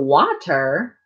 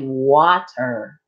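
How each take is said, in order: First: The middle consonant is a breathy TH sound. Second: The middle consonant is a plain T. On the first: "They put a H, a T H" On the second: "they don't say water"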